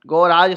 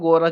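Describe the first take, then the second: First: The second vowel is drawn out long. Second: The second vowel is kept short. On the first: The speaker calls it wrong. "ऐसा उसमें लिखा गया है" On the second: The speaker calls it right. "जबकि वो गोरज होता है"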